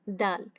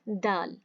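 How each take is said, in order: Both takes have the same delivery.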